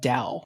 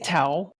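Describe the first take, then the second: First: The word begins with a D sound. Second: The word begins with a T sound. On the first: "most most folks actually pronounce it Dow" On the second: "you can say towel"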